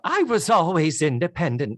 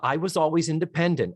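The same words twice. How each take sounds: First: It is said in a put-on character voice. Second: It is said in the speaker's normal voice.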